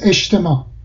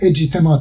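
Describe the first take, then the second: First: The consonant before t sounds like sh. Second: The consonant before t sounds like j. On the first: The speaker calls it right. "حتی بعد از الف اول اون جیم ش تلفظ میشه، میشه اجتماع" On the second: The speaker calls it wrong. "اصلا نمیتونیم اجتماع تلفظ بکنیم"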